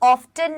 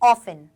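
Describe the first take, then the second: First: The t sound is clearly pronounced. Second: The t sound is left out. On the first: The speaker calls it wrong. "इसे हम ऑफ्टन नहीं पढ़ेंगे" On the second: The speaker calls it right. "इसे हम क्या पढ़ेंगे? ऑफन"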